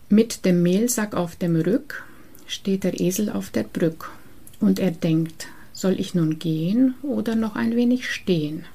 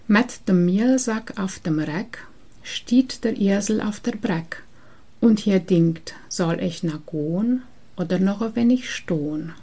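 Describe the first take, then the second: First: It is said in standard German. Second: It is said in Transylvanian Saxon dialect.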